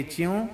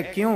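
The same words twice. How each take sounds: First: "च्यों" starting with ch instead of k; dialect pronunciation. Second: Said in the usual way. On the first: Shown as a demonstration. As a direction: say chyon for "च्यों". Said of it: "कहेंगे च्यों". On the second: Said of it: "है क्यों, कहेंगे च्यों".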